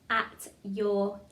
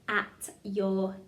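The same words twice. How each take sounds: The two takes are said the same way.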